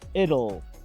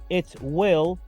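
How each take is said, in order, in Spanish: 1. It y will se unen en una forma reducida. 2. It y will son dos palabras completas separadas.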